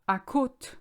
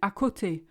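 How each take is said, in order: First: The word ends on a plain t sound. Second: The word ends with a final 'ay' vowel. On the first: It sounds like a reference to the coast. The speaker calls it wrong. "I hear some people say à côte to mean à côté" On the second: It means next to or beside. The speaker calls it right. "to mean à côté"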